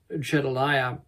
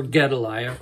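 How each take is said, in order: First: "Gedaliah" begun with a J sound; soft G Gedaliah. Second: "Gedaliah" begun with a hard G. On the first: Preacher offering one way to say the governor's name, soft-G "Gedaliah". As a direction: say "Gedaliah" as if spelt Jedaliah. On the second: Preacher offering the other way to say the name, hard-G "Gedaliah". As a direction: say "Gedaliah" with a G as in get. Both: Shown as a demonstration. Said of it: "however you want to pronounce it".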